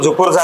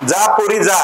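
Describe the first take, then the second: First: The phrase is said quickly with the words run together. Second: The phrase is said slowly with each word separate.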